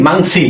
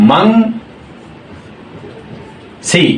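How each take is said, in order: First: Said in the usual way. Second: "মাং", long pause, then "সি"; syllable by syllable. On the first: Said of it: "এবং সি". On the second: Shown as a demonstration. Teacher spelling out a Korean word for learners, syllable by syllable. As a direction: split "মাং" and "সি" into two separate beats. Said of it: "ময়াকারে মা অনেশ্বর".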